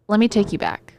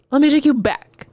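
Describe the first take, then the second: First: Said in the usual way. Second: Louder, higher repeat with a punch; punchy storyteller's call-back; emphatic story lead-in. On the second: Shown as a demonstration. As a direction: announce the flashback, higher and louder.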